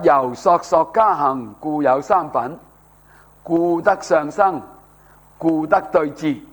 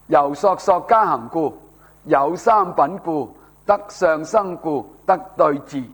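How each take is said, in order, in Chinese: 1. 每个停顿都在“故”字之前。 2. 每个停顿都在“故”字之后。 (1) "咁样读咧，嗰、那个文气咧就合乎啊" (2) "如果你跟标点，你会读成点咧？"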